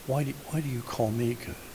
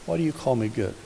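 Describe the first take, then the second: First: The question is asked in a loving tone. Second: The question is asked in a cold tone.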